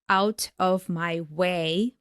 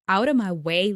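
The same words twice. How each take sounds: First: Each word is said separately and fully. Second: The words run together in connected speech. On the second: "he pronounces it like"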